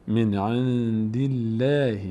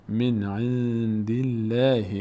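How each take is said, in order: The two takes are said the same way.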